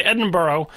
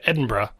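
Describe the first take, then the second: First: "Edinburgh" ending in a full "oh"; rejected borough pronunciation. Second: "Edinburgh" ending in a single "bruh"; chosen short pronunciation. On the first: Podcaster ruling out a version, borough-style pronunciation. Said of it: "we can't say Edinburgh". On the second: Podcaster settling on the accepted version, bruh ending. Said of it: "so we'll say Edinburgh". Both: Shown as a demonstration.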